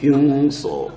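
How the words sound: The first syllable is a drawn-out 'hyung'. It is a foreign, anglicized rendering. The speaker calls it wrong. "ഹംസോ വഴങ്ങുകയില്ലാത്തതുകൊണ്ട് ഹ്യൂങ്സോ ആകും"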